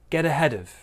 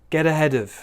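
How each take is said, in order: No difference in how they are said.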